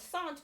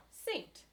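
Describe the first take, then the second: First: "sant" with one simple A and no k sound; simple A vowel. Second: "saint" with the vowel gliding as a diphthong, like "ay". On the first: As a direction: say "sant" on a single open A, the k dropped. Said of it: "this simple vowel, this A". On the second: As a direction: say "saint" higher, its A turned into a diphthong. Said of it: "becomes a diphthong". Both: Shown as a demonstration.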